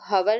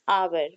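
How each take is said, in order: First: It starts with an h and a short vowel. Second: It starts directly with a vowel, no h. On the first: The speaker calls it wrong. "इसको हवर नहीं बोलेंगे" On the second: The speaker calls it right. "This pronunciation is आवर"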